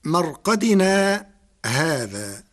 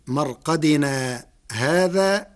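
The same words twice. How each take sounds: First: Slow مرقدنا, a short stop, then هذا; brief pause. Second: Slow مرقدنا هذا run together without a stop; no pause. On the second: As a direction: link مرقدنا straight into هذا. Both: Shown as a demonstration. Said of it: "بدون سكت بين".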